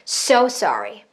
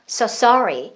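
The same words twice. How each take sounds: First: The word so gets more force. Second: The word sorry gets more force. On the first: "so에다가 조금 더 뱉어볼까요?" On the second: "sorry에다 더 뱉으면"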